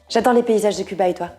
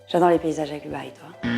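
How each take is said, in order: First: The speaking rate is noticeably altered. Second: Every sound is articulated very distinctly. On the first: "Ton débit" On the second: "Ton articulation"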